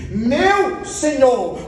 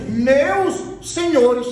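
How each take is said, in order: First: Stretched out, weighing each word; Abraham addresses the three as one lord, slow and stressed; slow emphatic quote. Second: "Meus senhores" drawn out slowly, stress on "Meus"; slow emphatic quote. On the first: Preacher stresses "Meu Senhor" slowly to show the singular. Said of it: "Abraão se pronuncia às três e diz assim". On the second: Preacher stretches "Meus senhores" to show the plural. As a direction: Lot greets the angels, slow plural stressed. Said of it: "Ló diz assim". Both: Retold or imitated.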